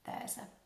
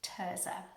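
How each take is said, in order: First: The name starts with a TH sound. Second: The name starts with a hard T sound. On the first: "mistranscribed as Thursday. So I think she pronounced her name Thurza" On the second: "like the hard T H sound in Teresa"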